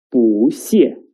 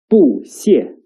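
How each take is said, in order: First: 不谢 with 不 rising, 谢 falling; 不 in second tone. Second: 不谢 with both syllables falling; 不 in fourth tone. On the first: Teacher showing the right reading, 不谢 rising then falling. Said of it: "will change into the second tone". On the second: Teacher showing the wrong reading, 不谢 as two falling tones. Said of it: "is not read as". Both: Shown as a demonstration.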